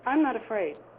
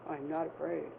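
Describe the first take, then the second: First: It is said in a normal speaking pitch. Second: It is said in a very low, deep pitch.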